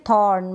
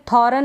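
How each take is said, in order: First: थॉर्न in one syllable with a slight r; only half-sound the r in थॉर्न; correct pronunciation. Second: थॉर्न split as two syllables, tho-ran; wrong pronunciation. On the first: Teacher shows learners the right reading, light-r थॉर्न. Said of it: "आर इसमें मतलब थोड़ा pronounce". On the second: Teacher shows learners the misreading, two-syllable थॉर्न. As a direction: give the r in थॉर्न a full vowel. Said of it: "थॉर्न नहीं पढ़ेंगे". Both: Shown as a demonstration.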